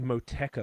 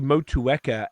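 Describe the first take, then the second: First: The middle vowels are merged into fewer syllables. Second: The u and e vowels are sounded out separately. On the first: This is the speaker's own casual way. "I would always say Moteca" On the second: This is how most people say it. "people say Motueka"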